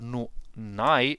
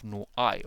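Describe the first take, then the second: First: The words are linked with an added n sound. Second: The words are said separately without linking.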